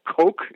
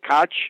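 First: The name sounds like the word 'coke'. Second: The name does not sound like 'coke'.

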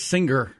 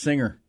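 First: It is said with a hard G after the ng. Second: It is said with no hard G after the ng. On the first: The speaker calls it wrong. "He says singer every single time" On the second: The speaker calls it right. "it's not a hard G. It's singer"

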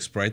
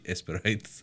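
First: The word starts directly with the S sound. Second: An E vowel is added before the S sound.

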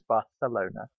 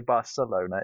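First: The c is said like a th. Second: The c is said like an s. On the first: The speaker calls it right. "the Spanish like to put th, like Barcelona" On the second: The speaker calls it wrong. "You don't say Barcelona"

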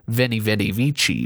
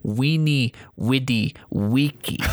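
First: The words begin with a V sound. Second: The words begin with a W sound. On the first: The speaker calls it wrong. "would be pronounced not" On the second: The speaker calls it right.

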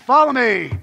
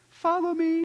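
First: It is said as a firm, rousing command. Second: It is said as a gentle, pleading request.

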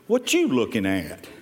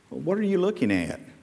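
First: It is asked in a confrontational, challenging way. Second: It is asked in a friendly, curious way.

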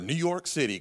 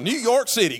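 First: It is said in a normal speaking voice. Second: It is said in an exaggerated put-on voice.

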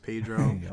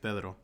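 First: The name is said with an anglicized pronunciation. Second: The name is said with a Spanish pronunciation. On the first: The speaker calls it wrong. "But it's not the right way you're supposed to say it" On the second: The speaker calls it right. "I say it the way it's meant to say"

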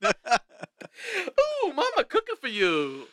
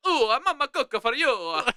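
First: It is said in a Yogi Bear voice. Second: It is said in an Italian accent.

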